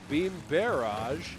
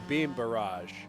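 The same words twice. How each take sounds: First: Barrage is said in a British way. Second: Barrage is said in an American way. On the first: "this is extremely British" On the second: "he doesn't say beam barrage"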